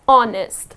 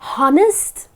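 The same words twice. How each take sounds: First: The word begins with a vowel sound. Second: The word begins with an h sound. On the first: The speaker calls it right. "The correct pronunciation of this word is honest" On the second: The speaker calls it wrong. "Now many people pronounce it as honest. That's incorrect. You need not pronounce this H here"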